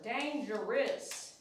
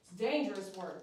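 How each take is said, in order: First: "Dangerous" stretched very slowly with a rise at the end; drawn-out dangerous. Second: Said in the usual way. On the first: Shown as a demonstration. Groomer joking to viewers about dangerous work, "Dangerous" stretched slow. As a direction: linger long on "Dangerous".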